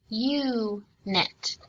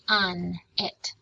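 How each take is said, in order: First: The first syllable ends in a vowel sound. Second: The first syllable ends in a consonant sound. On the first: "Because this one ends in a vowel, we would say" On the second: "Because this one is sandwiched with a consonant, we would say"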